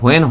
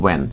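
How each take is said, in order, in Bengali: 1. এটি একটি শ্বাসযুক্ত h দিয়ে শুরু হয়, তারপর w। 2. এটি একটি সাধারণ w ধ্বনি দিয়ে শুরু হয়। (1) "এটা হোয়েন হবে না" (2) "এটার উচ্চারণ হবে"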